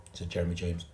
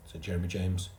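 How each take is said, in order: Both takes have the same delivery.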